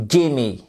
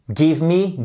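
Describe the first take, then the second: First: "gimme" run into one word; relaxed "gimme" with no v; casual reduced form. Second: "Give me" with the v sounded; two separate words, "Give me"; full form. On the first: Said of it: "la forme familière à l'oral". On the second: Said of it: "de to give me". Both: Shown as a demonstration.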